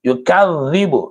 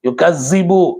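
First: The middle consonant is a dh sound. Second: The middle consonant is an s sound. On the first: The speaker calls it right. "அது யுகதிபு பித்தீன், அங்க தால் இருக்கு" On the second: The speaker calls it wrong. "யுகசிபு அப்படின்னு படிச்சா அது தப்பு"

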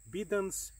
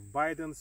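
First: The name is said with a Latin-style pronunciation. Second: The name is said with an English-style pronunciation. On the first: "but I like more Latin pronunciation" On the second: "if you like it"

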